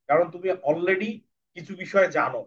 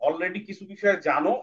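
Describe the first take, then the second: First: Said in the usual way. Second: Already কিছু বিষয় জানো said slowly, বিষয় rising; slow emphasis. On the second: Shown as a demonstration. Teacher repeats the point slowly so children take it in. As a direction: spell out বিষয় slowly with a rise.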